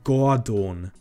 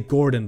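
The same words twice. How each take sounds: First: The name is said with German intonation. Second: The name is said with English pronunciation. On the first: The speaker calls it wrong. "they say Gordon in an in, in, in a German intonation" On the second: The speaker calls it right. "they don't say Gordon"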